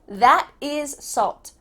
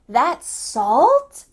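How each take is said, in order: First: The pitch falls at the end. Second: The pitch rises at the end. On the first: It is a statement. "Here we have a statement" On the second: It is a surprised question. "It's going up at the end"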